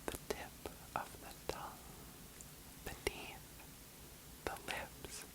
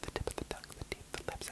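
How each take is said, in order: First: It is said at a slower speed. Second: It is said at normal volume and speed.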